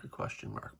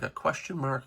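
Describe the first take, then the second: First: Fading away to a whisper. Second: Said in the usual way. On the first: Shown as a demonstration. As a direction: breathe the words out, unvoiced. Repeats the words, fading to a whisper.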